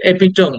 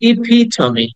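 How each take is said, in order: First: The word ends on an m consonant. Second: The word ends with an ee vowel. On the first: The speaker calls it wrong. "আসলে এপিটম না" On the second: The speaker calls it right. "Last এটা ই sound আছে"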